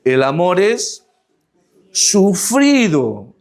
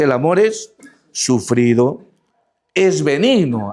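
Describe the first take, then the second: First: Slow deliberate reading, word by word; read slowly. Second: Said in the usual way. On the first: Shown as a demonstration. Preacher reads scripture to the congregation, slow and deliberate. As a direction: stretch out "El amor es sufrido" slowly, with a rise on "es" and a long drawn "sufrido". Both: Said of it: "Vamos a leerlo pausadamente".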